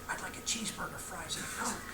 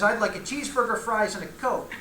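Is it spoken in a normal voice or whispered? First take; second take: whispered; normal voice. First: It is spoken in a whisper. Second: It is spoken in a normal voice.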